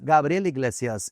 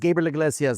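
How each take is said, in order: First: The name is said in a strong accent. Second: The name is said in a plain accent.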